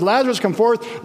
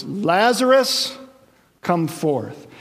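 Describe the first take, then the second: First: Raised commanding call; powerful call. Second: Slow drawn-out call on Lazarus; called out loud. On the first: Jesus speaking Lazarus back to life, commanding. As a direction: sound the name like a command of power. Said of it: "there's such power in his voice". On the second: Jesus calling the dead man from the tomb, drawn out. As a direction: stretch the name Lazarus like a summons. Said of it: "he cried out in a loud voice". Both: Acted.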